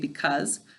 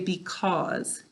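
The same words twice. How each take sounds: First: It is said in a quick, reduced everyday way. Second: It is said carefully, each part pronounced fully. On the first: This is how people normally say it. "we usually say because" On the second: This way helps with spelling the word. "to spell it correctly, we need, need to say because"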